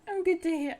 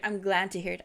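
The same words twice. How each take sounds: First: Tongue-slip. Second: Said in the usual way. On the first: Real, not acted. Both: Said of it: "I can't speak".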